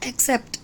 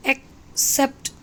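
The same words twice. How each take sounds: First: Said in the usual way. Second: "accept" broken in two, ek - sept, with a pause; split at the hyphen. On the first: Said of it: "For example". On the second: Shown as a demonstration. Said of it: "उसके बाद hyphen दिया है".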